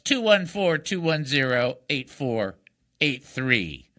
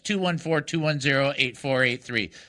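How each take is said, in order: First: The number is read slowly. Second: The number is read at normal speed.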